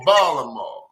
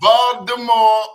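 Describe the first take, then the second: First: The middle consonant is dropped completely. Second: The T in the middle sounds like D. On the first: "there's going to be no consonant at all" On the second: "T's either going to be a D"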